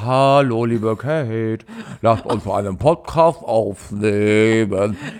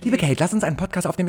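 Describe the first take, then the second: First: The phrase is spoken slowly and heavily. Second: The phrase is spoken quickly and lightly. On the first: The speaker was heavier back then. "Da habe ich auch so" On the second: The speaker is lighter now and has more breath. "Ich rede so schnell, weil ich so viel Luft habe"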